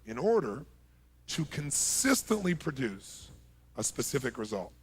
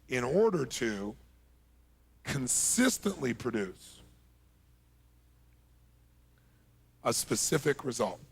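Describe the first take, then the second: First: It is said at normal speed. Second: It is said slowly.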